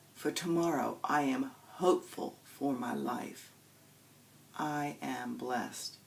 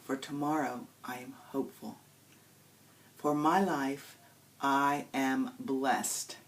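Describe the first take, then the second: First: The pause comes after the word life. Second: The pause comes after the word hopeful.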